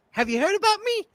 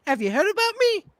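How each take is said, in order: First: High falsetto question; hammed-up high voice asking; high-pitched parody line; AOC impression. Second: High falsetto repeat, stress on me; same high parody voice, landing on me; AOC impression. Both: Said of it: "I'd like to play A O C".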